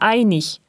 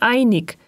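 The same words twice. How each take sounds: First: The ending is pronounced like ich. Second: The ending is pronounced like ik. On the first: The speaker calls it right. "Die Endung IG wird ich gesprochen" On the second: The speaker calls it wrong. "wie in Süddeutschland meist zu hören"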